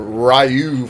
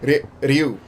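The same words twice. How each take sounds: First: The r is a plain English r sound. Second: The r is a quick d-like flap. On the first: The speaker calls it wrong. "we've been calling the guy from Street Fighter Ryu for all these years" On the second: The speaker calls it right. "It's actually Ryu"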